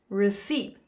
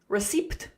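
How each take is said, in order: First: The P sound is silent in the word. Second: The P sound is pronounced in the word. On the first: The speaker calls it right. "So you can see the P is silent" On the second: The speaker calls it wrong. "We don't say receipt"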